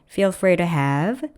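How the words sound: The pitch rises at the end of the phrase. The speaker calls it wrong. "이렇게 문장 중간중간을 올려놓는 습성이 있으세요"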